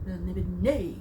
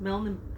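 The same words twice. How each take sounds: First: It is said enthusiastically with a flourish at the end. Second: It is said plainly without any flourish at the end. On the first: "the enthusiasm with which he pronounced the title of the world, Melniboné, with a little blah at the end" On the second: "not just Melniboné"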